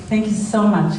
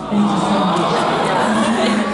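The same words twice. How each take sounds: First: Said in the usual way. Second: Said slowly, each word drawn out; thanks stretched out, word by word. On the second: Real, not acted. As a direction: let every word of thanks linger. Repeats thanks to her son.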